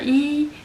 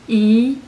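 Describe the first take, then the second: First: The syllable is said with the first tone. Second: The syllable is said with the second tone.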